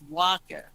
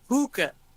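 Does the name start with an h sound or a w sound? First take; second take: w sound; h sound. First: The name starts with a w sound. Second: The name starts with an h sound. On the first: The speaker calls it right. "It's waka" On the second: The speaker calls it wrong. "you call it hookah"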